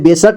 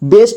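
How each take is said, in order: First: A full vowel is sounded between s and t. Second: The s and t are joined without a vowel. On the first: The speaker calls it wrong. "इसे बेसट नहीं पढ़ना है" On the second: The speaker calls it right. "बेस्ट ही पढ़ना है"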